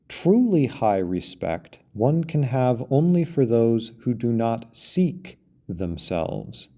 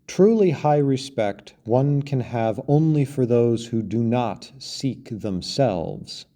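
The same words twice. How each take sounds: First: The word seek is strongly emphasized. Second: No word is given special emphasis. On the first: "The emphasis is on seek" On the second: "I'm going to read the quote without the emphasis"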